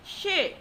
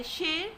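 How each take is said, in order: First: "she" starts high and drops sharply; falling tone. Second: Mid-rising tone on "she"; second tone. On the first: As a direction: say "she" like a short command. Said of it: "with four tones called falling tones". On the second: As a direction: lift "she" like a question. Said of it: "with second tone". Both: Shown as a demonstration.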